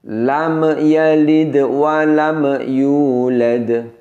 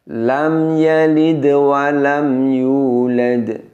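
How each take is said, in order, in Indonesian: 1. Huruf m ditekan dan memantul dengan gema. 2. Huruf m adalah dengung pendek yang halus tanpa gema. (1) "Mimnya terdengar ada bunyi pantulan" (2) "Biasa saja, cukup didengungkan, namun dengungnya singkat saja"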